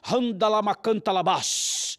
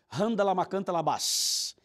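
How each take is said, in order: First: It is said in a dramatic, projected voice. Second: It is said in a plain, ordinary voice.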